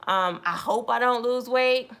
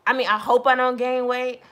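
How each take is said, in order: First: Said in the usual way. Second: "gain" pushed up and louder as the fix; stress on gain. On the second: Shown as a demonstration. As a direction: correct yourself by hitting "gain".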